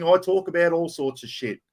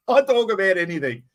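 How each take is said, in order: First: Said in the usual way. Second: Said through a real laugh, a bit higher. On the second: Real, not acted. Host to stream viewers, laughing at himself. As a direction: chuckle the words out as you say them. Repeats line, second with laugh.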